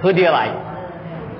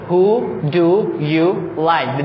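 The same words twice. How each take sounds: First: The words are reduced and run together quickly. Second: Every word is said fully and clearly. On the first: The speaker calls it right. "They just say" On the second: The speaker calls it wrong. "They don't say"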